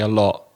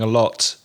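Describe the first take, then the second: First: The final T is a glottal stop. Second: The final T is fully pronounced. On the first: "what they call a glottal stop" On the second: "instead of saying a lot"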